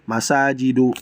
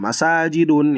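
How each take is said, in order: First: The word ends on a vowel without n. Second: The word ends with an n sound. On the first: The speaker calls it right. "Yang benar adalah masajidu" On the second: The speaker calls it wrong. "Itu keliru"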